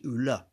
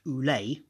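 First: "oule" with a short, open final e, not "ay"; grave-accent pronunciation. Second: "oulé" ending in an "ay" sound; acute-accent pronunciation. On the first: Showing how the other accent would change it, "oule" with open final e. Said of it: "accent from top left to bottom right". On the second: Explaining the poem's word to listeners, acute-accent "oulé" as oo-lay. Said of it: "it's pronounced oulé". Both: Shown as a demonstration.

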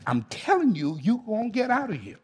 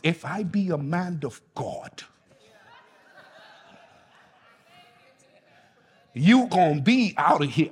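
First: Said in the usual way. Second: A hint of a Bahamian preacher; Bahamian accent. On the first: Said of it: "Hey, this is how they say it". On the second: Shown as a demonstration. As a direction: say it the way they do in the Bahamas. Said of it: "this is how they say it in the Bahamas".

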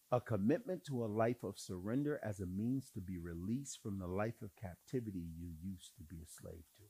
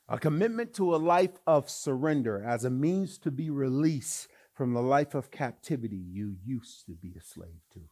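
First: Low, soft statement of the definition; said low and gentle before repeating it; quiet first take. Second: Louder, fuller restatement for emphasis; louder repeat. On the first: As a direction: lay it down softly. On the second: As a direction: hammer it home the second time. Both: Shown as a demonstration. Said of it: "repeated for emphasis".

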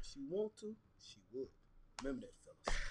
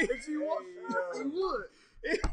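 First: Very soft, half-muttered "she would."; quiet aside. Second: Said through a laugh, "would" pitched up; laughing repeat. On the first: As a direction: drop it low like a secret tip. Muttered advice aside to fellas. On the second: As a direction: chuckle as you repeat "would". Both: Real, not acted.

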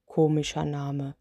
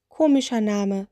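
First: Lower, softer giant, lightly voiced; yawning giant. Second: Little witch. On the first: Sleepy spirit on the witch's name, low and soft. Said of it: "sagte der Mann und gähnte". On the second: Acted. Witch echoes the spirit, lightly voiced little witch. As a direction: toss it back in the witch's voice.

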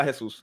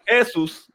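First: Said in the usual way. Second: "Jesús" stressed on the first syllable, JE-sus; higher-pitched "Jesús" with stress pulled off the U; misread without accent. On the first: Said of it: "se supone que diga Jesús". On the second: Shown as a demonstration. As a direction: read "Jesús" literally as JE-sus. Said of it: "porque no tiene acento en la U".

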